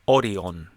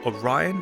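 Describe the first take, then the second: First: The name gets a Japanese-style pronunciation. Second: The name gets an English-style pronunciation. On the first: "they actually pronounce it Orion" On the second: "if you were to ask for Orion"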